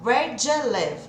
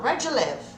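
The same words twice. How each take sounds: First: "Where do you live" slower, "do you" still merged into "djə"; louder, measured "Where do you live" with "do you" kept glued; devagar, mas grudado. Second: "Where do you live" run together quickly; "do you" merged into "djə" in "Where do you live"; grudado. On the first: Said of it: "mesmo quando eles falam devagar". ("Where do you live" devagar, com "do you" grudado) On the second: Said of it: "Ele continua falando grudado". ("Where do you live" tudo grudado, rápido) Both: Shown as a demonstration.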